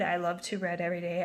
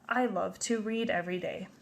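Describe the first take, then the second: First: The word read rhymes with bed. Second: The word read rhymes with seed. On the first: The speaker calls it wrong. "So I wouldn't read" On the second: The speaker calls it right. "I would read this as"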